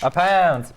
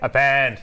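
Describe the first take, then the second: First: It is said in a normal speaking voice. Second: It is said in an exaggerated deep voice.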